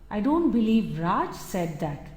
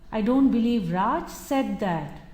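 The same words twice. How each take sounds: First: The word Raj carries the main stress. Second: The word said carries the main stress. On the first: Someone else may have said it. "It could be someone else, but not Raj" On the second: It may have been thought but not said aloud. "He might have contemplated it, but actually having said that may not be possible"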